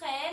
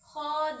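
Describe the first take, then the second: First: The letter is said with a thin, light sound. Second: The letter is said with a full, heavy sound. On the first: The speaker calls it wrong. "इसे हम खे नहीं पढ़ेंगे वरना ये पस्ती वाला हो जाएगा" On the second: The speaker calls it right. "ये खौ पुरहरूफ है"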